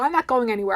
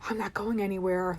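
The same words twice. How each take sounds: First: It is said in a plain, matter-of-fact way. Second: It is said in a low, resigned way. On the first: The car will not be moved. "it turns from a literal" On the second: Life is not progressing. "like the realization I'm not going anywhere in life"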